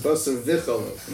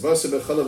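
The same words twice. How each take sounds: First: "V'Chalav" begun with a v sound; V'Chalav with a vav. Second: "V'Chalav" said with b for the first v; B'Chalav with a beis. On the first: Teacher contrasting the rabbinic law's term, "V'Chalav" starting with v. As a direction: stress the opening v of "V'Chalav". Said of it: "it's not with a Vav". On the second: Teacher contrasting the Torah law's term, "V'Chalav" starting with b. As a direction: open "V'Chalav" on a b sound instead. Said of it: "with a V". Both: Shown as a demonstration.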